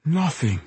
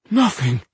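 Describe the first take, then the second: First: Soft moan. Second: Higher, more desperate plea. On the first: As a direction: moan it out softly. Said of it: "he moaned softly". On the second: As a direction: say it with growing despair. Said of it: "this time more desperately". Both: Acted.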